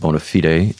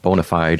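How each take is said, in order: First: It is said with a Latin-style pronunciation. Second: It is said with an English-style pronunciation. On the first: "we pronounce it bona fide in Latin" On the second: "as you might say it in Anglo"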